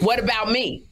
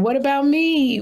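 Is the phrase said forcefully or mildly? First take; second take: forcefully; mildly. First: The phrase is said loudly, with strong force. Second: The phrase is said mildly, without much force. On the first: The speaker calls it right. "I said it a little bit more forcefully. Like" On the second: The speaker calls it wrong. "That doesn't sound like you"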